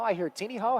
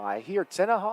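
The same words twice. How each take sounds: First: Put-on "Teeny Haw" with a long ee, TEE-nee-haw; variant pronunciation. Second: "Tenaha" with a short e, TEN-uh-haw; pronunciation of Tenaha. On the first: Commentator comparing local pronunciations, "Teeny Haw" said TEE-nee-haw. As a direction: stretch the first vowel of "Teeny Haw" to ee. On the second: Commentator comparing local pronunciations, "Tenaha" said TEN-uh-haw. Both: Shown as a demonstration. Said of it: "Talked about how you pronounce Tenaha".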